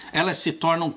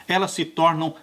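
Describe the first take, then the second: No difference in how they are said.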